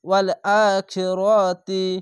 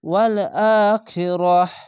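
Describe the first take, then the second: First: The final word ends with a 'ti' sound. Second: The final word ends with a silent 'h' sound. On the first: The reading continues without stopping. "যদি মিলিয়ে পড়েন তাহলে তা হবে" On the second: The reader stops at this word. "থামতে হয় তাহলে এই গোল তাকে হা পড়তে হবে এরকম ভাবে"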